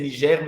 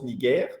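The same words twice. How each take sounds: First: The word is pronounced the French way. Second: The word is pronounced the German way. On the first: "comment ça se prononce en français" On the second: "mais en allemand ça se prononce"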